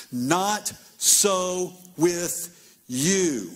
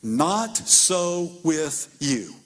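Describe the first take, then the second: First: Not so with you, stretched word by word very slowly; very slow emphasis. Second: Not so with you, each word drawn out very slowly; very slow emphasis. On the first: Jesus repeats his rule to the disciples, very slow. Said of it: "And he said". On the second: Jesus corrects his disciples, very slow and weighty. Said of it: "And then he says this". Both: Acted.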